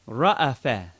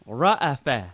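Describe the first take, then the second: No difference in how they are said.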